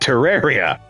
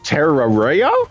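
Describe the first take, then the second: First: It is said in a plain, normal voice. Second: It is said in a cartoonish put-on voice. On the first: The speaker knows the game from hearing it discussed. The speaker calls it right. "I properly pronounced it Terraria" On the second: The person is unfamiliar with the game's name. The speaker calls it wrong. "In their full Scooby-Doo style voice"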